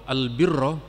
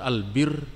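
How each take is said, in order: First: The word ends with a final vowel sound. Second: The word ends on the consonant r. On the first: It means righteousness or goodness. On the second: It sounds like the word for beer.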